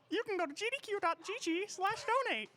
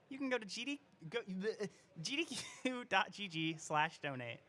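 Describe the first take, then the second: First: It is said in a Mickey Mouse voice. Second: It is said in her normal voice.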